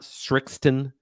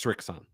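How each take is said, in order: First: A t sound comes before the last syllable. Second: No t sound comes before the last syllable. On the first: The speaker calls it wrong. "It's not Strixton" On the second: The speaker calls it right. "there's no T in there"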